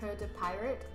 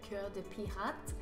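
First: The name is said with an English accent. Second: The name is said with a French accent.

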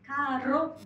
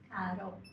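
First: The r is rolled strongly. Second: The r is tapped softly. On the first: The speaker calls it wrong. "カーロじゃなくて" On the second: The speaker calls it right. "ちょっとこの場合は柔らかい感じ。"

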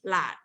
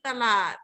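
First: The word is clipped short to one syllable. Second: The word is said in full with two syllables. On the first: This is the Southern Thai form. "แต่ภาษาถิ่นใต้คือหลาดคือสั้นตัดคำให้มันสั้นลง" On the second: This is the Central Thai form. "ภาษากลางคือตลาด"

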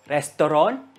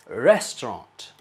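First: It is said as 'restoron', beginning with r. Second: It is said in standard English.

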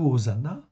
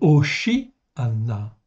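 First: The middle of the word has an 's' sound. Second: The middle of the word has an 'sh' sound. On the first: The speaker calls it wrong. "ce n'est pas du tout Hosanna" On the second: The speaker calls it right. "C'est Hoshi'anna"

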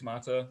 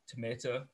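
First: It is said with a British accent. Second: It is said with an American accent.

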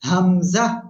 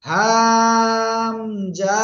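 First: The sound is short and released at once. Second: The sound is drawn out and lengthened. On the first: The speaker calls it right. "কোনো টান হবে না এই অক্ষরে, গলা শুরু থেকে জাস্ট উচ্চারণ করে ছেড়ে দেব" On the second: The speaker calls it wrong. "Hamza এরকম না"

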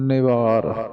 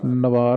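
First: A short i vowel follows the first n. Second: No vowel is heard after the first n. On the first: The speaker calls it right. "ਨੰਨੇ ਨੂੰ ਸਿਹਾਰੀ" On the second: The speaker calls it wrong. "ਨਿਵਾਰ ਨਹੀਂ ਕਹਿਣਾ"

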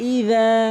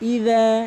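First: The middle consonant is a 'dh' sound. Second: The middle consonant is a 'dh' sound.

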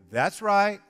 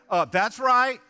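First: It is said plainly, without attitude. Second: It is said with a sassy attitude.

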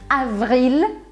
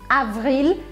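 The two takes are said the same way.

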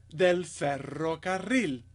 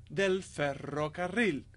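The two takes are said the same way.

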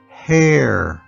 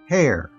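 First: The word is said slowly. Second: The word is said quickly. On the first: "followed by slow one time" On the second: "I'll say each new word fast one time"

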